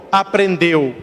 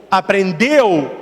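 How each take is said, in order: First: Aprendeu. dropped low as a firm answer; answering tune. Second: Aprendeu? slow, asked as a question; asking tune. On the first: Priest answering himself, low falling answer. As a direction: close with Aprendeu. as a statement. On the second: Priest quizzing the congregation, slow question. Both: Shown as a demonstration.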